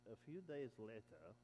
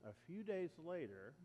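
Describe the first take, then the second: First: Social media voice. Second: Said in the usual way. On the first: Shown as a demonstration. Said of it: "it will say it like this". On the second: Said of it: "or if you watch social media, it will say it like this".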